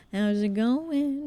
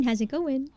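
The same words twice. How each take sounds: First: Slow, drawn-out playful voice; sing-song greeting. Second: Said in the usual way. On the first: Acted. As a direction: croon the greeting lazily. Repeats greeting in a put-on voice.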